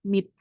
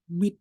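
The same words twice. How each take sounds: First: The final consonant sounds close to T. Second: The final consonant is a full, clear D. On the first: The speaker calls it right. "Dia lumayan ke T. Jadi kayak mid gitu" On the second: The speaker calls it wrong. "Nggak terlalu D banget kayak mid gitu"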